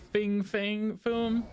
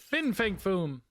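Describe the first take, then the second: First: The first word ends with an 'ng' sound. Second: The first word ends with an 'n' sound. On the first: The speaker calls it wrong. "It's so hard not to say Fing Fang Foom" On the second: The speaker calls it right. "I know it's Fin Fang. I think I say it right"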